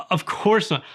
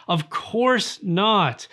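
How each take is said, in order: First: Said in the usual way. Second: "Of course not." stretched very slowly, every word weighted; slow emphatic no. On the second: Shown as a demonstration. Rejecting the idea to the viewer, slow and emphatic. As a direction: drag out "Of course not" to drive it home.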